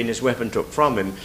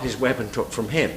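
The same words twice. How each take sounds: First: "from" leaned on, "him" left light and falling; weight "from", let "him" drop away; the correct line, with "from" lifted over "him"; stress on from. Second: "him" leaned on, "from" left light; the rejected line, with "him" stressed over "from". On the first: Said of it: "It's simply that it has to be". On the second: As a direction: punch "him" as the wrong reading. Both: Shown as a demonstration.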